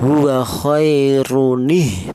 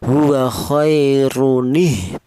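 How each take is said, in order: First: A linking 'nih' sound joins it to the next word. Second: The same.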